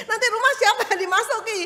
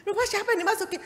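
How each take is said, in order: First: High, loud, fast laughing question; neighbour asking. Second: High laughing repeat of the question; laughing echo. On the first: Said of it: "tetanggaku itu bilang gini". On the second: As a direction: echo her back, laughing. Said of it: "Saya bilang". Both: Retold or imitated.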